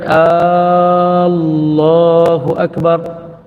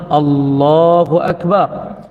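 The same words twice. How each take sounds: First: The opening hamzah vowel is drawn out long. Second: The opening hamzah vowel is short. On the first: The speaker calls it wrong. "bukan ... tak sah takbiratul ihram" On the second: The speaker calls it right.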